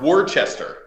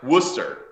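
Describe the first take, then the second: First: Every written syllable of the name is sounded out. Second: The name is said unlike its written letters. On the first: This is how the name looks on paper. The speaker calls it wrong. "but it's spelled Wor- Worcester" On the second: This is how the name is actually said. The speaker calls it right. "but it's pronounced Worcester"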